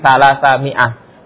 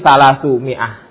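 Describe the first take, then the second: First: The first word ends in the vowel a. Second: The first word ends in the vowel u. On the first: The number is the object of the verb. "sebagai maf'ulun bih berarti salasa mi'ah" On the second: The number is the subject of the sentence. "sebagai mubtada berarti salasu mi'ah"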